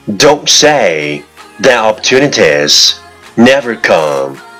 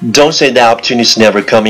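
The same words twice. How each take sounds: First: It is spoken at a normal, steady speed. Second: It is spoken very fast in one breath.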